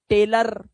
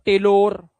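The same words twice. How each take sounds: First: टेलर slowly, ending in "lur"; correct ending. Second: टेलर ending in a long "lore"; wrong ending. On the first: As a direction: say टेलर with uh in the last syllable. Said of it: "आ की आवाज". (टेलर के अंत में अ की आवाज़) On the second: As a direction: show the mistake, टेलर as "tay-lore". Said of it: "ओ मत कर देना". (टेलर को "टेलोर" बोलना) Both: Shown as a demonstration.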